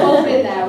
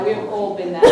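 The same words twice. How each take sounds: First: Louder, said through laughter; laughing. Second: Said in the usual way. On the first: Real, not acted.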